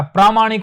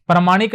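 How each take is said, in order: First: प्रामाणिक said with long "प्रा"; the right way, प्रामाणिक with a long प्रा; teacher showing the correct form, long प्रा in प्रामाणिक; correct pronunciation. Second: प्रामाणिक said as "प्रमाणिक", short first a; the wrong way, प्रामाणिक with a short "प्र"; teacher showing the error, short प्र in प्रामाणिक; wrong pronunciation. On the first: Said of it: "प्रामाणिक होता है". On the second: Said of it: "प्रामाणिक नहीं होता". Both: Shown as a demonstration.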